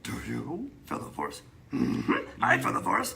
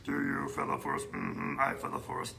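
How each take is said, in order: First: It is said expressively, in Yoda's voice. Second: It is said flatly, like a robot.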